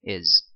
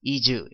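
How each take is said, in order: First: It is said with a native English pronunciation. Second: It is said with a Korean-style pronunciation. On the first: The speaker calls it right. "is 이렇게 발음을 하시면 되겠습니다" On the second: The speaker calls it wrong. "너무 한국적인 발음으로 하지 마시고"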